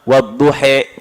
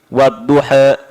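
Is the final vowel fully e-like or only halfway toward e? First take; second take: fully; halfway. First: The final vowel is clearly tilted toward e. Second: The final vowel is only slightly tilted toward e. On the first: "ada yang membaca dengan imalah" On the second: "ada yang membaca dengan taklil"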